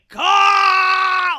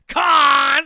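First: It is screamed with intense anger. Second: It is said with petty, casual annoyance.

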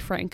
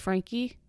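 First: The name ends on a plain k sound. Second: The name ends with a long ee sound. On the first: "I think it should be Frank" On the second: "you don't pronounce it like a long E sound"

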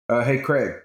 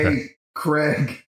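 First: It is said in a plain natural voice. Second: It is said in an odd put-on voice.

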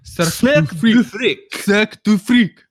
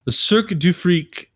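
First: It is said in a put-on French accent. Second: It is said in a plain, everyday accent.

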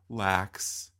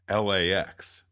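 First: It is said as a single word. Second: It is said as three separate letters. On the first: It means careless or slack. The speaker calls it wrong. "like lax, you know, like didn't quite do what they needed to do" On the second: It names the airport. The speaker calls it right. "It's LAX"

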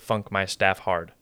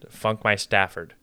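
First: The ending is said as two separate words. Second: The ending runs together as the single name Stafford. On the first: "Instead of" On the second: "the enunciation on Stafford is just"

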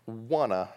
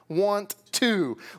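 First: It is reduced and blended into one word. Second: It is said as two separate full words. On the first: The speaker calls it wrong. "Listen to this word, wanna" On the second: The speaker calls it right. "I think it's a word for 2 words"

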